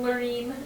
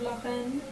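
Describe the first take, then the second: First: The name is said with English sounds. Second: The name is said with French sounds.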